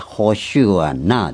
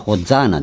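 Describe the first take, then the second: First: The word is said in a Hebrew-style way. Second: The word is said in an English-style way. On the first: "ヘブル語でホシュアナですね" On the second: "これは英語読みでホザーナです"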